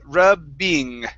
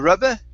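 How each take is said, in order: First: The word ends in a full -ing sound. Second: The word ends in a weak -uh vowel. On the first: The speaker calls it right. "you do need to pronounce this ing sound" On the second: The speaker calls it wrong. "or rubba"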